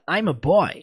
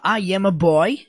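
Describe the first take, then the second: First: I am is contracted into one syllable. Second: I am is said as two separate words. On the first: "de uma maneira mais abreviada" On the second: "Poderia ser separado"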